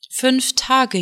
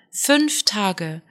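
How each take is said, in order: First: "Fünf Tage" with Tage raised high and falling; reproachful wife, weight on "Tage"; stress on Tage. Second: "fünf Tage" with the weight on "fünf", falling; repeated reproach, stressing "fünf". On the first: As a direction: lean on "Tage", lift the pitch there. Wife reproaching returned husband. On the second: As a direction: hit the word "fünf". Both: Acted.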